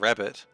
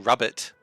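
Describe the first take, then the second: First: The first vowel sounds like 'a' in 'cat'. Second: The first vowel sounds like 'u' in 'cup'. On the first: "instead of rabbit" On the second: "if you say rubbit"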